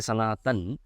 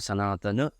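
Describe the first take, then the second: First: The word ends on an n sound. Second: The word ends on an a vowel. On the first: The speaker calls it wrong. "Sanatan is not the right pronunciation because when we say Sanatan, the last sound is ending in n" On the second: The speaker calls it right. "It is supposed to end with a. Therefore"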